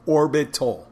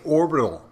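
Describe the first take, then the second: First: "orbital" carefully split as OR-bit-tal; higher, louder "orbital", each syllable distinct. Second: "orbital" run together as OR-buh-tl; higher, louder "orbital" with a blurred middle syllable; casual orbital. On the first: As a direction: sound out "orbital" with a crisp T. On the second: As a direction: say "orbital" with a reduced, swallowed middle. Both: Shown as a demonstration. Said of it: "I couldn't say orbital".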